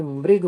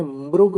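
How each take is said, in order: First: मृग said as "mrig", with ऋ as "ri"; मृग with a short "ri" sound; मृग pronounced "mrig", the northern way; northern pronunciation. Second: मृग said as "mrug", with ऋ as "ru"; मृग with a rounded "ru" sound; मृग pronounced "mrug", the southern way; southern pronunciation. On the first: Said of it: "Uttarapath में मृग बोलते हैं". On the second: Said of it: "Dakshinapatha में मृग बोलते हैं". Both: Shown as a demonstration.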